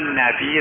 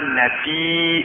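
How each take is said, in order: First: The word ends plainly without a glottal catch. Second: The vowel is drawn out and ends in a glottal catch. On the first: The speaker calls it right. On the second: The speaker calls it wrong.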